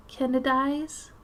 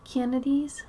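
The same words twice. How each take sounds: First: "Kennedys" drawn out, ending in "-dies"; slow "Kennedys", last syllable rhyming with "eyes"; vowels turned to I's. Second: "Kennedys" with the ordinary "-deez" ending; "Kennedys", last syllable rhyming with "bees"; regional vowel demo. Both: Shown as a demonstration. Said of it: "A's are I's".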